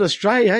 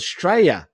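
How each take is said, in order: First: Said in the usual way. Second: Straya, starting straight on the S; Australia clipped to Straya. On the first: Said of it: "you don't call it Australia". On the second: Shown as a demonstration. Aussie teaching the local name, Straya without its first syllable. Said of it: "without the A U S".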